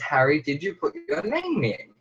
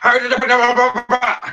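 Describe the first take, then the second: First: It is asked calmly and politely. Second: It is asked harshly and impolitely.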